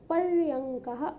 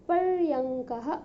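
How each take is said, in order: Both takes have the same delivery.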